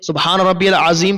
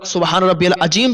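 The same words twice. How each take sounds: First: The word azeem is said with a z sound. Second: The word azeem is said with a j sound. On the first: The speaker calls it right. "अजीम का अगर जा नहीं निकाल पाता है" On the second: The speaker calls it wrong. "ये माना तब्दील हो जाएगा और नमाज आपकी नहीं होगी"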